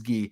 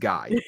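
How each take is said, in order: First: The name is said the French way, like 'ghee'. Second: The name is said the English way, rhyming with 'eye'. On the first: This is how it is said in this province. "Just in this one, it is Guy" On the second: This is how it is said outside this province. "Everywhere else, it is Guy"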